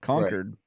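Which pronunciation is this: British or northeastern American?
northeastern American. It is pronounced the northeastern American way. "which is the northeastern version of Concord"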